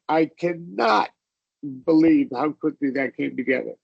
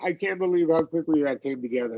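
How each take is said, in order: First: The word not in cannot is stressed. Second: The contraction can't is said plainly, matter-of-fact.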